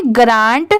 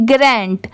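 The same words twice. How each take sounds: First: ग्रांट with a long open "aa"; long-aa pronunciation. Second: ग्रैंट with the "a" of "ran"; "grae" pronunciation. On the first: Teacher reads the spelled word aloud, ग्रांट with long "aa". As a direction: say ग्रांट as "graant", vowel like "father". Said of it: "इसे क्या पढ़ेंगे". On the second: Teacher blends the taught sounds, ग्रैंट with "ae" vowel. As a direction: say ग्रैंट as "graent", gra plus nt. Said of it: "जी को ग नहीं, ग्रै पढ़ा गया है". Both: Shown as a demonstration.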